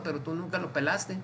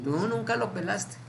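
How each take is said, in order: First: Said in the usual way. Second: "Tú" held long and pitched higher; stress on Tú. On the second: Acted. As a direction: stretch "Tú" out, then finish the reproach. Repeats the verdict with drawn-out tú.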